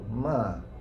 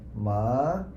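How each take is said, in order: First: The pitch drops sharply from high to low. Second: The pitch rises from middle to high. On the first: "It's from high to low" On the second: "the rising one will be like ma"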